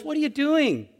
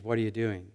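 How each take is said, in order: First: High-pitched, reproving question; harsh challenge. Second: Low, soft, non-judging question; gentle question. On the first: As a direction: challenge them as if catching them out. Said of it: "God is judging us harshly". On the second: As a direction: ask quietly, without any reproach. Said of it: "when in fact what he's saying is". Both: Acted.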